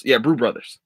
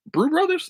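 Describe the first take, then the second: First: Said in the usual way. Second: Brew Brothers? asked much higher with a rising tune; questioning. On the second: Shown as a demonstration. Checking the show's name, a high rising question.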